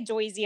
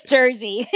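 First: "Joyzy" with "oy" for "er", New York Italian; mock New York Italian "Joyzy"; New York Italian accent. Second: Said in the usual way. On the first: Shown as a demonstration. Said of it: "We don't say Joyzy unless you're". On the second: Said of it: "It's Jersey".

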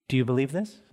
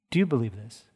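First: «this» лифт вверх в конце; stress on this. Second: «you» выделено, тон ниже; stress on you. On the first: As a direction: ask it leaning on «this» with a rise. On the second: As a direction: press on «you», lower and flat. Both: Shown as a demonstration.

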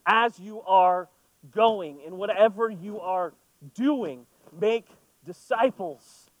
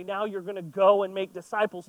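First: "As you are going" said slowly with weight on "As"; slow, stressed correction. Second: Said in the usual way. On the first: Shown as a demonstration. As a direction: lean on "As" and "make" to correct the misreading. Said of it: "No, it is". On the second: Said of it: "It's not just saying".

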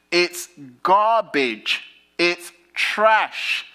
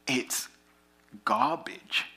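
First: Higher, louder, slow "garbage" thrown away; preaching peak. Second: Soft breathy whisper on "garbage". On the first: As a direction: spit out "garbage" with a long fall, higher and louder. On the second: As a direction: breathe "garbage" almost without voice. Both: Acted.

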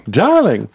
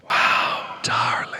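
First: Said in the usual way. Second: Breathy stage whisper, no voice at all; playful whispered echo of wow and darling. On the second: Pretend. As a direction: hush it right down to a whisper.

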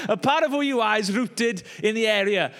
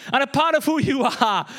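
First: Said in the usual way. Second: Laughing. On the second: Real, not acted. Catching his own awkward phrasing, laughing. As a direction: giggle through the phrase.

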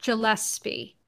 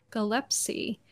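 First: Gillespie with a soft J-like G, falling. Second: Gillespie with a hard G, rising like a question. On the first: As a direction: say Gillespie as jil-ESP-ee, settled. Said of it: "I'm gonna go back to Gillespie". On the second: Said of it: "or is it? I don't know". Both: Shown as a demonstration.

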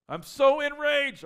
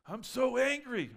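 First: Very high, loud, slow mocking shriek; hammed-up enraged cry. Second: High, slow, loud mocking wail of anger; mock angry whine. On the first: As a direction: overplay the fury for a laugh. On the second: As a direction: ham up the outrage. Mocking an enraged person.

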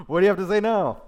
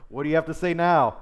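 First: Very loud, high-pitched jeer; exaggerated taunting inflection. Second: Loud, high jeer; taunting inflection. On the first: Zebul jeering at Gal, hammed-up loud taunt. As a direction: ham up the gloating challenge, louder and higher. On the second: Acted. Zebul confronting Gal, loud taunting inflection. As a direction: throw it back at him, loud and high. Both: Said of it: "That's my, my inflection".

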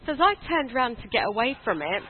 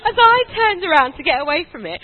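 First: Said in the usual way. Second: Louder, higher storytelling; emphatic restart. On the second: Real, not acted. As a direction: pick the story back up loudly over laughter. Resumes loudly over audience laughter.

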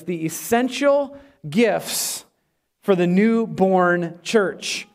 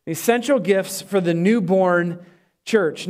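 First: Slow, each word weighted; slow announced title. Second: Said in the usual way. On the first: Shown as a demonstration. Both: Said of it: "here's my sermon title".

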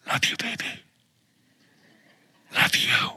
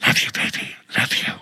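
First: Soft whispered phone voice; breathy whisper into the phone. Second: Hushed whisper, unvoiced; whispering on the phone. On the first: Retold or imitated. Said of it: "I would hear him whispering on the phone". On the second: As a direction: whisper it like a late-night call. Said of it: "I'd hear him going".

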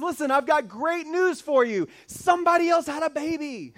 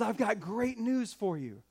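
First: Louder and higher, a triumphant angel's proclamation; grand announcement. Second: Said in the usual way. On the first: Retold or imitated. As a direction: proclaim it like a herald, big and bright. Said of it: "and the angel says". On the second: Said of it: "And the angel says".

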